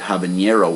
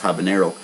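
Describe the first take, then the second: First: The middle consonant has an ny sound. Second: The middle consonant is a plain n. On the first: The speaker calls it wrong. "most people make that mistake in pronouncing it habanero" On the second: The speaker calls it right. "when it's actually just habanero"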